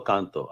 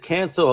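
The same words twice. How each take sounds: First: "Canto" said KAHN-toe; "Canto" with a Spanish-style A; open-A pronunciation. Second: "Canto" with the A of "can't"; "Canto" rhyming with "panto"; short-A pronunciation. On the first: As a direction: open "ah" in the first syllable of "Canto". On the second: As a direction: say "Canto" as CAN-toe, American short A. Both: Shown as a demonstration. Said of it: "how do you prefer?".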